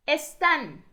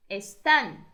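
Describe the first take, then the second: First: Están said higher and loud, stress on TÁN; teacher drilling the stress; model word. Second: Said in the usual way. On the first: Shown as a demonstration. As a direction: call out Están, landing on TÁN. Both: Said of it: "repeated model word".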